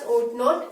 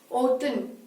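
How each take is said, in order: First: Not is said in full as a separate word. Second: Not is shortened and joined onto ought. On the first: "this is pronounced as ought not" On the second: "this is pronounced as oughtn't"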